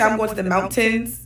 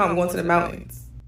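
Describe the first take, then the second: First: The T in mountains is fully pronounced. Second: The T in mountains is dropped, Californian style.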